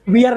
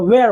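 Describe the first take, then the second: First: The vowel sounds like 'ear'. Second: The vowel sounds like 'air'. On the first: The speaker calls it wrong. "इसका pronunciation वियर नहीं होता है" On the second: The speaker calls it right. "वेयर होता है"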